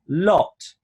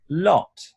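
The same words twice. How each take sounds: First: The vowel is said with rounded lips. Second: The same.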